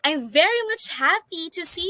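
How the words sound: The tone sounds warm and sincerely glad. The speaker is truly glad to see the listeners. The speaker calls it right. "the first one is more convincing"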